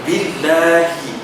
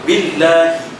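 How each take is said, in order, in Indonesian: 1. Bunyi L-nya tipis. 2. Bunyi L-nya tipis.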